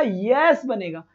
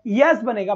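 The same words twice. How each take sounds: First: Slow answer. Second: Said in the usual way. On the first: Shown as a demonstration. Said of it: "ये क्या बनेगा?". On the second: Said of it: "क्या बनेगा टिंगर?".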